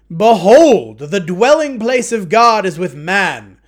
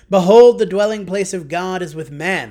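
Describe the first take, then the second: First: It is said in a loud booming voice. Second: It is said at normal volume.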